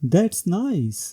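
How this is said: It rises and falls, sounding excited. The speaker feels joy. "With rising and falling tone, this sentence expresses excitement or joy"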